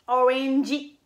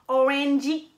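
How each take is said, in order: First: The word is said with a Japanese accent. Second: The same.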